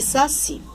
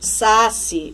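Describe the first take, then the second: First: The stress is on the last syllable. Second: The stress is on the first syllable. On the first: The speaker calls it right. "Eu vou ler caqui e saci" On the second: The speaker calls it wrong. "Ninguém vai ler"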